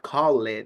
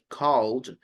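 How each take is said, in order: First: The ending adds an extra syllable before D. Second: The ending is a plain D, one syllable. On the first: The speaker calls it wrong. "it's not called" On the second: The speaker calls it right. "like called"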